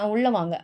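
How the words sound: It is said harshly and sternly.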